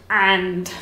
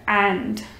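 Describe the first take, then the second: The two takes are said the same way.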